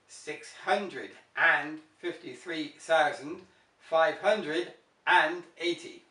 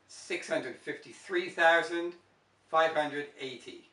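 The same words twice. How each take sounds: First: The word 'and' is said after 'hundred'. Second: No 'and' is said after 'hundred'. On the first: "in British English, this is how it's written" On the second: "in the American English, it becomes"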